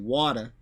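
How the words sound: It is said in a nasal Queens accent. "We say water. It's a more nasal way to say it"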